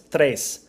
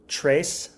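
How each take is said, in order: First: The word is said with a Spanish accent. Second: The word is said with an English accent.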